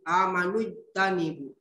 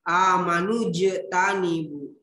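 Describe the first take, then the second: First: The j sound is not bounced at all. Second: The j sound is bounced with a light echo. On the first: The speaker calls it wrong. "tidak dibaca" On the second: The speaker calls it right.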